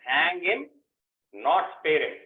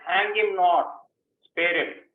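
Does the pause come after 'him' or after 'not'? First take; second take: after him; after not. First: The pause falls after the first 'him'. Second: The pause falls after 'not'. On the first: The person should be executed. "You said it's a punishment" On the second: The person should be spared. "I am putting comma here"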